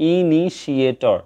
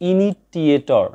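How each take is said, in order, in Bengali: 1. 'ini'-এর পরের শব্দটি 'sh'। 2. 'ini'-এর পরের শব্দটি 't'। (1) "এটা বলবা হচ্ছে" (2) "আমরা অনেকেই বলে থাকি কিন্তু এটা ইনিটিয়েটর না"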